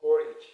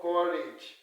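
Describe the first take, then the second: First: Courage ending in a short I, "KOR-idge". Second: Courage with an E in the ending, "KOR-edge"; mistaken pronunciation. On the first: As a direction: say Courage loudly as "korridge". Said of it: "It's what?". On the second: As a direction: slowly end courage in "-edge". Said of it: "It's not called courage". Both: Shown as a demonstration.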